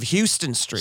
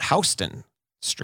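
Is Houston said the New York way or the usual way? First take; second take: usual way; New York way. First: Houston is said the usual, widely known way. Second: Houston is said the local New York way.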